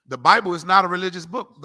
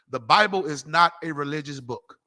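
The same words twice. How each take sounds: First: "not" punched louder in "The Bible is not a religious book"; emphatic repeat. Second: Said in the usual way. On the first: Shown as a demonstration. Preacher repeats his claim to the crowd, louder with stress on "not".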